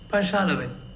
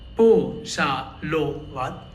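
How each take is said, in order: First: The first vowel sounds like A. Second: Each O is said as a full O. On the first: The speaker calls it right. "but Pashalavit" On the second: The speaker calls it wrong. "or Po-sha-lo-vat"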